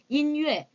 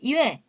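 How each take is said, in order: First: The n is pressed clearly with a slight break. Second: The n sound is dropped and blurred away. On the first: The speaker calls it right. "인유에 이렇게 읽어야지" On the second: The speaker calls it wrong. "이외 이런 식으로 읽으시는 분들이 상당수가 되더라고요"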